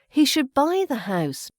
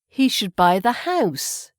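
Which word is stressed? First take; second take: buy; house. First: The word buy carries the stress. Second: The word house carries the stress. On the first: Buying as opposed to renting. "it's buy" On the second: A house, not an apartment or anything else. "we're stressing the house"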